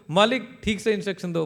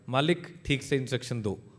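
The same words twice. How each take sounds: First: The line is said loudly. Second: The line is said at moderate volume.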